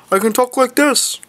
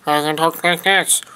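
First: A bit higher than usual. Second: Said in the usual way. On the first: Shown as a demonstration. Vlogger shows off his vocal range, slightly higher. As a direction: lift the voice a touch.

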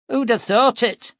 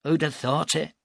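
First: Higher, louder, marvelling; amazed exclamation. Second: Said in the usual way. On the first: Acted. Nestor to the captain, amazed at the preacher. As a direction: throw it out in astonishment.

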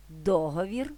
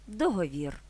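First: ДОговір, stress at the start, rising end; stress on first syllable. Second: ДогоВІР, stress at the end, falling tune; stress on last syllable. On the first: (наголос на перший склад: ДОговір) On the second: (наголос на останній склад: догоВІР) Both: Shown as a demonstration. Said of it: "подвійним наголосом".

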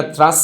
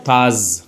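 First: থ্রাস with r straight after th, "thras"; থ্রাস with sharp s ending; wrong pronunciation. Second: থার্স drawn out as "thaaz", no r; long vowel in থার্স, buzzing z. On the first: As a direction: say থ্রাস with a th-r cluster. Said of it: "এটা থ্রাস না". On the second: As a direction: model থার্স alone, r silent. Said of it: "জর মতো উচ্চারণ হবে". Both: Shown as a demonstration.

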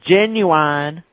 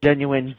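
First: Genuine said with a sh start and "yoo-an" ending, rising and louder; the other way of saying it. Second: Genuine as "zhenuin", first take of two; one way of saying it. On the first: Friend mocks a second pronunciation of genuine, rising louder. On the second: Friend shows one pronunciation of genuine, then another. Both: Shown as a demonstration. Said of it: "Tomato, tomato".

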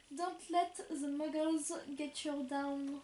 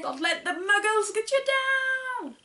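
First: Slow careful reading. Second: Higher, louder, hammed-up quote; mock Ron Weasley. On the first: Shown as a demonstration. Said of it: "c'est moi qui lis cette fois". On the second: Sister reading the notebook quote as Ron Weasley, hammed up. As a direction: belt out the Ron Weasley line. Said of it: "Ron Weasley".

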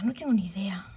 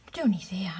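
First: Whispered aside. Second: Said in the usual way. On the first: Real, not acted. Whispers "no tengo ni idea" to herself after telling viewers. Repeats it under breath.

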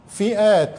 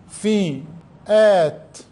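First: Said in the usual way. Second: فئات stretched very long; very slow dictation. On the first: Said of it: "teacher repeating word". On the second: Shown as a demonstration. Teacher dictating to pupils, very slow فئات. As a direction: drag out فئات slowly. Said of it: "teacher dictating very slowly".

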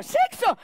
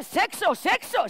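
First: Sexo jumped way up in a squeal; squealed high sexo. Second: Said in the usual way. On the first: Shown as a demonstration. Repeating the word for laughs. ("sexo" muy agudo, como un chillido)

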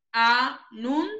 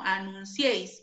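First: "Anunciéis" with a louder, rising final "ciéis"; stressed final syllable. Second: Said in the usual way. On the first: Shown as a demonstration. Teacher marking the stressed final syllable of "Anunciéis" for students. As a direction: lean into the last syllable of "Anunciéis". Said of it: "se tilda la vocal abierta". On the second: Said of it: "Cieis es una palabra aguda".

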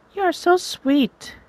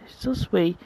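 First: Much higher, slow falsetto with a lean on so; sweet girl voice. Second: Said in the usual way. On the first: Acted. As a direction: swoon it high and slow.

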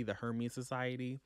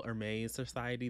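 First: Hermes said "HER-meez", H sounded; English pronunciation. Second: Hermes said "air-MAY", silent H; French-style pronunciation. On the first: Book vlogger correcting the society's name, English-style Hermes. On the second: Book vlogger naming the secret society, French-style Hermes. First says name French-style, then corrects. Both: Real, not acted.

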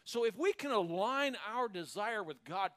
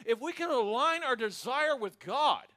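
First: Said in the usual way. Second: "align" hit louder and higher, falling at the end; emphatic repeat. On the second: Shown as a demonstration. Preacher repeating the line to his church, louder with "align" stressed. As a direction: preach it again with force on "align". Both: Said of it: "church, get a hold of this".

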